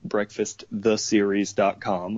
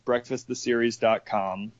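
First: It is said slightly more slowly. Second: It is said at normal conversational speed.

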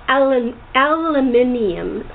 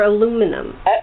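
First: It is said with a British pronunciation. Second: It is said with an American pronunciation.

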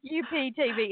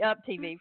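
First: Up is spelled out as separate letters. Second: Up is said as one ordinary word. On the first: The speaker calls it wrong. "when you said UPTV" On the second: The speaker calls it right. "It's actually Up TV"

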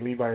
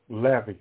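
First: The name is said with an English pronunciation. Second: The name is said with a Hebrew pronunciation. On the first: "We say Levi in English" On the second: "Because that's how you would say it in Hebrew"

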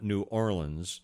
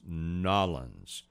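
First: The name is said in full, all syllables separated. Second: The name is squeezed into two quick syllables. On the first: The speaker calls it wrong. "I was told by natives there it's not New Orleans" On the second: The speaker calls it right. "It's Nollins"

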